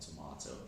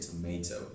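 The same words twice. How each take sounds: First: Tomato is said the British way. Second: Tomato is said the American way. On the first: "not tomato" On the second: "I sound British, but I would say tomato"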